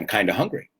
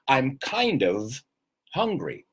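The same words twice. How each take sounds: First: Kind of is blended into kinda. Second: Kind of is said as two full words. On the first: "I'd always say" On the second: "perfectly correct"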